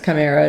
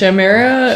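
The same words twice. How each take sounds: First: The word begins with a K sound. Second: The word begins with an SH sound. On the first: The speaker calls it right. "And now I know it's chimera" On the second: The speaker calls it wrong. "I initially always go towards some other pronunciation"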